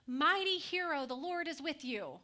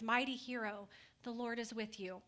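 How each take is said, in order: First: Angel hails hiding Gideon as Mighty hero, loudly proclaimed; proclaiming angel. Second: Said in the usual way. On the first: Acted. Angel greets Gideon in the winepress, proclaiming loudly. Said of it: "and said". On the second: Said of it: "this is who you are in my eyes".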